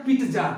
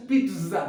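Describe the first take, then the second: First: Pizza said "PEET-jaa"; a hard J in pizza, louder; wrong pizza pronunciation. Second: Pizza said "pit-zza" with a long Z; correct pizza pronunciation. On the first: (pizza को "पीट्जा" बोलें) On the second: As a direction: buzz the Z in pizza. (pizza में "ज़" खींचकर "पिट्ज़ा") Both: Shown as a demonstration. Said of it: "it's not a pizza".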